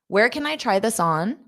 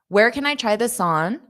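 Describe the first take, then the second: The two takes are said the same way.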